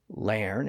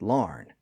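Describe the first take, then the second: First: The vowel is an 'er' sound. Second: The vowel is an 'ar' sound. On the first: "some people said lairn" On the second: "some people said larn"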